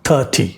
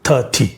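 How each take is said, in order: No difference in how they are said.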